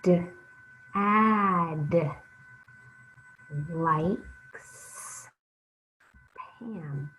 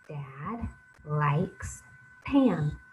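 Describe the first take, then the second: First: Each part is said separately with pauses between. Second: The words flow together without any pauses. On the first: "Sound it out" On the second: "Now let's read it smoothly"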